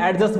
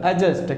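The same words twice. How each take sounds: First: एडजस्ट with the D sounded, "ad-just"; एडजस्ट with an audible D before the J; common mispronunciation. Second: एडजस्ट with silent D, "a-just"; एडजस्ट joined up, no D before the J; correct pronunciation. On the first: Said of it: "हम क्या बोल रहे हैं इसको". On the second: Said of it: "इसका correct जो pronunciation". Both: Shown as a demonstration.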